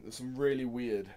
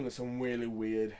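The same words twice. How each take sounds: First: "really" retried slowly with a clear r; careful r. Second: "really" comes out as "weally", r turned to w; slow "really weird" with w in place of r; says w for r. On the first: Shown as a demonstration. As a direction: redo "really" and say the r properly. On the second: Real, not acted. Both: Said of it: "I can't say my R's today".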